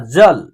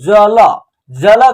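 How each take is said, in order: First: The final l is said without a vowel. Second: The final l is followed by a full vowel. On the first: The speaker calls it right. "तो इसका शुद्ध उच्चारण क्या हो रहा है ना" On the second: The speaker calls it wrong. "अगर इसको हम लोग जल जल करेंगे तो उच्चारण गलत हो जाएगा"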